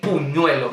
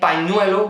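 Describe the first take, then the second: First: The first vowel is a 'u' sound. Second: The first vowel is an 'a' sound. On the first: The speaker calls it wrong. "I say puñuelo" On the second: The speaker calls it right. "instead of saying pañuelo, which is silk"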